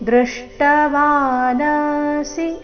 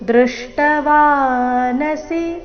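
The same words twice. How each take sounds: First: The 'na' syllable is lengthened. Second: The 'na' syllable is short. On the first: The speaker calls it wrong. "ಈ ರೀತಿ ನಾನ ದೀರ್ಘ ಮಾಡಬಾರ್ದು" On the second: The speaker calls it right. "ಇಲ್ಲಿ ವಾ ದೀರ್ಘ, ನ ಮತ್ತೆ ಸಿ ರಸ್ವ ಬರಬೇಕು"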